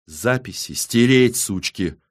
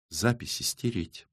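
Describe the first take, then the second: First: Slow, firm, angry order; angry, drawn-out command; angry repeat. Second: Soft, matter-of-fact demand; quiet order. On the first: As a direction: press each word with spite. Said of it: "зло повторила Иола". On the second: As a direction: give the order softly and evenly. First quiet order, repeated angrily after. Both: A narrator's reading.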